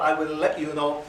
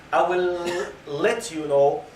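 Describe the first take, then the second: First: Birmingham-accented "let you know"; light Birmingham accent on "let you know". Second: Said in the usual way. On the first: Shown as a demonstration. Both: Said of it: "you don't use this accent".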